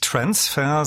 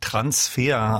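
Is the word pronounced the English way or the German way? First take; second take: English; German. First: The word is pronounced the English way. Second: The word is pronounced the German way. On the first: The speaker calls it wrong. "nicht Transfer" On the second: The speaker calls it right. "sondern Transfer, also deutsch ausgesprochen"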